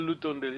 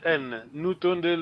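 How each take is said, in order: First: "Lutondele" said with an L at the start instead of N, softer; teacher gives the L form "Lutondele" quietly. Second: "Nutondele" with a clear N at the start, the N held first on its own; teacher sounds "N, Nutondele" with a stressed opening N. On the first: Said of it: "either L U or N U". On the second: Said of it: "Either L O". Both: Shown as a demonstration.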